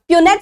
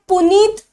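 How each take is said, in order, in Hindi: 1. यह pyoo-net जैसा बोला जाता है, y-glide के साथ। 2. यह poo-neet जैसा बोला जाता है, दूसरा स्वर लंबा। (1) "प्यूनेट स्क्वायर और पनेट स्क्वायर" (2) "इसे पुनीत प्रोनाउंस नहीं करेंगे हम"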